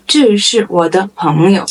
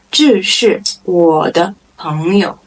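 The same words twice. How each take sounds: First: Said in the usual way. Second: Word by word for beginners. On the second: Shown as a demonstration. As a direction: separate the words, unhurried. Model sentence, slow first take.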